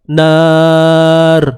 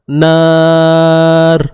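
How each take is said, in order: Both takes have the same delivery.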